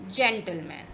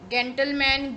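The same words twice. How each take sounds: First: जेंटलमैन said with a soft j sound at the start, "jentleman"; जेंटलमैन with the English j sound; correct soft j. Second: जेंटलमैन said with a hard g at the start, "gentleman" like goat; wrong hard g. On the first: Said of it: "इसका pronunciation होता है जा". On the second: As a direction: deliberately mispronounce जेंटलमैन with g as in gun. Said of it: "ऐसा नहीं बोलेंगे हम". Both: Shown as a demonstration.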